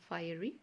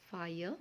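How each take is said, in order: First: An extra vowel sound is heard at the end. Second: No extra vowel sound is heard at the end. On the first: The speaker calls it wrong. "It's not fiery" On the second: The speaker calls it right. "So E is silent here"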